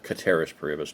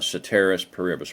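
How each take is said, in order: First: The first word begins with a hard K sound. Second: The first word begins with a soft S sound. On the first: This is the classical Latin reading. "technically. ... in Latin, a C is a hard K" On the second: This is the usual English reading. "it looks like ceteris paribus in English"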